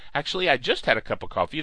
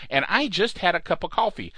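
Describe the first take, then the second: First: Fast, rushed jittery patter; caffeinated rush. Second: Said in the usual way. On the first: Real, not acted. Host jokes about his coffee, rushing fast. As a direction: rattle it off like too much coffee. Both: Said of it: "coffee does these things to you".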